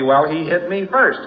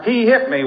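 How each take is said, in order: First: Said in the usual way. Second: Put-on much higher, tattling child; lightly voiced child accusing; complaining kid. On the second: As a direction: tell on him like a little kid. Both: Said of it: "You hear little kids saying".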